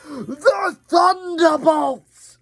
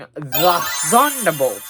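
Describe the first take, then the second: First: It is said in an attempted Russian accent. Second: It is said in a plain accent.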